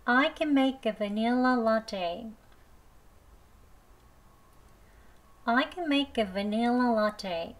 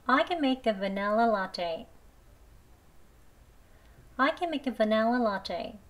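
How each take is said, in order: First: The sentence spoken very slowly, "vanilla" with an i, "va-NIL-la"; slow, careful model reading. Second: The sentence spoken very slowly, "vanilla" with an e, "va-NEL-la"; slow reading, e in vanilla; slow e version. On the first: Teacher reading the practice line slowly, i version. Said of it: "발음 두 번 해보겠습니다". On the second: Teacher reading the practice line slowly, e version. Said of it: "vanilla라고 할게요". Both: Shown as a demonstration.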